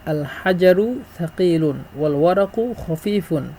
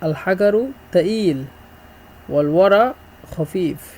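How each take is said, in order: First: Standard Arabic, with j and q sounds. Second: Egyptian dialect, with hard g and dropped q.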